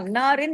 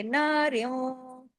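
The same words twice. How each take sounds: First: "नारिन" closed on a plain short n; "नारिन" with the final n pronounced clearly; wrong unmerged ending. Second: Slow, softer "नारियों" fading on a long nasal hum; "नारियों" with the ending stretched through the nose; merged nasal ending. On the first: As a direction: end "नारिन" briskly on n, no hum. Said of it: "नारिन नहीं पढ़ेंगे". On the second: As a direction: melt the n of "नारियों" into a held nasal w. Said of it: "इदगाम हो गया". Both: Shown as a demonstration.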